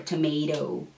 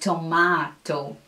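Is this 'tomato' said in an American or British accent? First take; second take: American; British. First: American accent, the last t sounds almost like r. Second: British accent, with a broad ah in the middle. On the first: "that word in American English would be tomato, you know, with the last T sounding almost like an R" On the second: "But British English would be tomato, like tomato. This ah is very typical from here"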